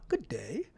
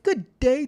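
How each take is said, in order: First: It is said in a put-on British accent. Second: It is said in his own American accent. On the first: "that was bad" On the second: "I should have used a British accent"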